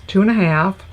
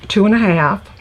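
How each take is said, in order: Both takes have the same delivery.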